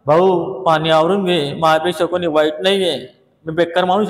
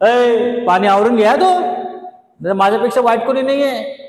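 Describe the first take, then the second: First: Slow mild request; slow polite take to neighbour; slow polite plea. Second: Louder, higher quarrel shout; angry at neighbour. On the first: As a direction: ask the neighbour kindly, slowly. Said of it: "तू असं म्हणू नका". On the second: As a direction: warn the neighbour off sharply. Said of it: "तुम्ही काय म्हणणार?". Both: Shown as a demonstration.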